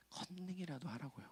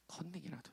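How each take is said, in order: First: A quiet conspiratorial aside; murmured joke; hushed joke. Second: 컨닝이라도 again, soft and falling; soft echo of the joke; hushed repeat. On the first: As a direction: say 컨닝이라도 하라고요 very softly, almost under the breath. Joking aside to congregation. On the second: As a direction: drop it to a murmur. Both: Real, not acted.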